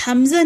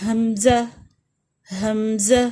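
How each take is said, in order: First: حمزہ said "amza", the h sound softened the wrong way; wrong pronunciation. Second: حمزہ said "hamza" with a clear light h, rising; correct hamza. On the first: Teacher showing children the wrong way to say it. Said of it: "حمزہ نہیں کہیں گے". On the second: Teacher modelling the right name for children. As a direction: model حمزہ for students to repeat. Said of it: "ٹھیک ہے". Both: Shown as a demonstration.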